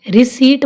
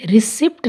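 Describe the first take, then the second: First: रिसीट with long ee straight into T; silent P. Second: रिसिप्ट with short i and P before T; P sounded. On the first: Teacher telling learners what to say, रिसीट with silent P. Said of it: "रिसीट बोलेंगे". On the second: Teacher showing the mistake to avoid, रिसिप्ट with P sounded. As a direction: say रिसिप्ट, pronouncing the P. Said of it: "रिसिप्ट नहीं". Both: Shown as a demonstration.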